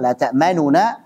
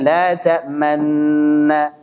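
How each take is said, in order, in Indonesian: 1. Dua bunyi nun dengan vokal pendek yang tereduksi di antaranya. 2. Dua bunyi nun menyatu menjadi satu nun yang ditasydid. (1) "Kalau yang baca dengan tidak idgham, dibaca dengan idhar" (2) "Jadi itu kalau yang baca dengan idgham berarti diismamkan"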